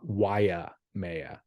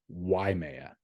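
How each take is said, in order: First: The name is said as 'Waya Maya'. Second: The name is said as 'Waimea'. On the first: The speaker calls it wrong. "It's not Waya Maya" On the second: The speaker calls it right. "It's just Waimea"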